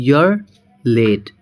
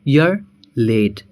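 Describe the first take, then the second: The two takes are said the same way.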